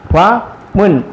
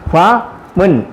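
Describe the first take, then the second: Both takes have the same delivery.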